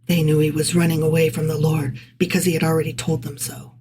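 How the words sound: It is read in a parenthetical aside voice.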